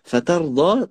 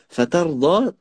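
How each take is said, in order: First: The d sound is heavy and emphatic. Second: The d sound is heavy and emphatic.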